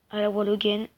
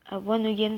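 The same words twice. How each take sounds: First: "one again" slurred as "wal oguène"; "one again" with an L in place of the N; slipped pronunciation. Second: "one again" said as "wan oguène"; "one again" as a French-accented "wan oguène"; corrected pronunciation. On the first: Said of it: "pardon. Dites-moi dans les commentaires si je prononce mal". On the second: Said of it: "si je prononce mal". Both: Real, not acted.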